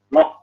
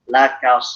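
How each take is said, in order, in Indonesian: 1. Vokalnya tebal dan gelap, seperti o. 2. Vokalnya tipis dan terang, seperti a. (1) "kenapa jadi loko? Karena dia pengaruh tebalnya huruf sod" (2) "huruf-huruf tipis"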